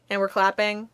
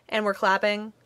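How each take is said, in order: Both takes have the same delivery.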